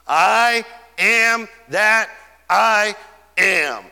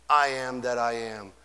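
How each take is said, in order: First: I am that I am, every word slow, loud and weighty; all caps. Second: "I am that I am" dropped much lower and softer; hushed reverence. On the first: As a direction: drag out "am" and hit each word like capital letters. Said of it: "All caps". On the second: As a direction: let it fall to a low, awed hush. Quiet echo of the divine name. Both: Acted.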